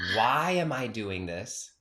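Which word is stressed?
why. The stress is on the word why.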